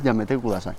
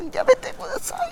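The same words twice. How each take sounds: First: Said in the usual way. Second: Very high, breathless squeal; anime moan. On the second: Shown as a demonstration. (gemido agudo y sin voz de anime) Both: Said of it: "pues allí es".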